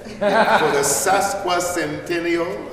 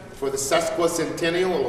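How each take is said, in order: First: Sesquicentennial said slowly, syllable by syllable; careful pronunciation. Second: Said in the usual way. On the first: Real, not acted. Speaker showing off a hard-learned word, sesquicentennial pronounced slowly and carefully. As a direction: take your time getting through "sesquicentennial", with a little laugh. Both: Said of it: "took me a long time to learn to say".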